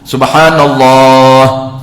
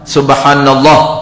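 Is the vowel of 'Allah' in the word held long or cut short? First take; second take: long; short. First: The vowel of 'Allah' is held for two counts. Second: The vowel of 'Allah' is cut short. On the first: The speaker calls it right. "Tak nak panjang pun, sekurang-kurangnya dua" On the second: The speaker calls it wrong. "tak sah"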